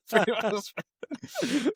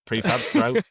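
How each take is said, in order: First: Very high and slow, stretched out; drawn-out swoon. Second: High, excited reading of a cassette name; excited British Tubbs. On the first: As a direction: swoon over the band name, dragging each syllable. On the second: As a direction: gush over the tape like a fan. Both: Pretend. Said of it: "and he's like".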